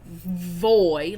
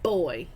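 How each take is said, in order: First: It starts with a hard, buzzing V sound. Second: It starts with a hard, full B sound. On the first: "it's not voy, like I'm not like Ving really like hard or harshly" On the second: "But it's also not boy"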